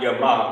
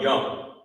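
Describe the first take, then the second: First: Two separate syllables are said one after another. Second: The sounds merge into one joined syllable. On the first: The speaker calls it wrong. "Not ya ma" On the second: The speaker calls it right. "but young"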